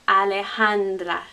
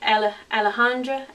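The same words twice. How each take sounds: First: It is said with Spanish vowels and sounds. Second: It is said with English vowels and sounds. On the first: The speaker calls it right. "We have to keep the D and the R, the official sounds" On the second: The speaker calls it wrong. "most of us English speakers would look at that and say"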